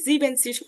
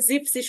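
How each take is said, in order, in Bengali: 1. শব্দটিতে তিনটি শব্দাংশ আছে। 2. শব্দটিতে দুটি শব্দাংশ আছে। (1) "জিবেনসিস হবে না" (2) "এখানে জিপসিস হবে"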